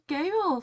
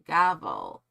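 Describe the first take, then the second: First: The first vowel does not rhyme with paddle. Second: The first vowel rhymes with paddle. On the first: The speaker calls it wrong. "I thought it was gavel for some reason" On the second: The speaker calls it right. "It's like gavel, like unravel"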